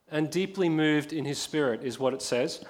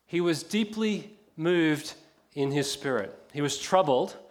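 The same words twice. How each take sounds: First: Said in the usual way. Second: Slow reading. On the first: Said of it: "actually doesn't mean deeply moved". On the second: Shown as a demonstration. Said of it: "actually doesn't mean deeply moved or troubled".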